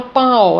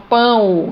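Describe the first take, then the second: First: Pão with the final O said as an open O; wrong pronunciation. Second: Pão with the final O gliding to a U sound; correct pronunciation. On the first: Teacher showing how it is not said, pão ending in open O. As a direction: say pão as "pã-Ó", as spelt. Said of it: "eu não falo pão". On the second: Teacher showing the semivowel, pão ending in U sound. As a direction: say pão as "pãu". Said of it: "eu falo pão". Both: Shown as a demonstration.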